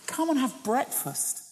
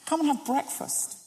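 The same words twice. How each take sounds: First: Tender invitation. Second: Higher, softer repeat of the invitation; softer tender echo. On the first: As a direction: offer breakfast like a loving host. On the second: Jesus again calling disciples to eat, tenderly. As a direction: linger lovingly on the words. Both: Acted. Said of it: "these wonderful words".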